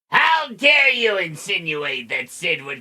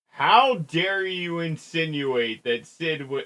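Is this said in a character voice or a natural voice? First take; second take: character voice; natural voice. First: It is said in a put-on character voice. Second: It is said in the speaker's ordinary voice. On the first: The speaker calls it right. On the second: The speaker calls it wrong.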